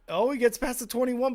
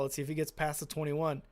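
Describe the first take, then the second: First: Higher, louder live call; excited. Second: Said in the usual way. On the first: Real, not acted. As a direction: call the return as it breaks open. Live kick return, rising excitement.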